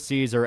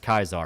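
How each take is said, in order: First: The name begins with a soft S sound. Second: The name begins with a hard K sound. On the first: "they refer to Caesar as" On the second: "It's an actual pronunciation they use"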